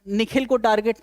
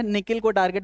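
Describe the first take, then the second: First: निखिल with a breathed "kh"; name Nikhil, aspirated. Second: निकिल with a plain "k"; no puff of air on the "k" in निकिल; nickel, unaspirated. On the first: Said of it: "निकिल को target बनाया है". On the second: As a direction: say निकिल as ni-kil, like the metal. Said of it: "निखिल को target नहीं बनाया है". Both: Shown as a demonstration.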